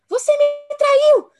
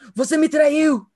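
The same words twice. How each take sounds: First: It is said in a high, thin voice. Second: It is said in a deep, thick voice.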